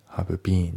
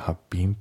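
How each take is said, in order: First: The word been is said fully and clearly. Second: The word been is said short and reduced. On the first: The speaker calls it wrong. "have been じゃなくて" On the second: The speaker calls it right. "been って感じで発音されますね"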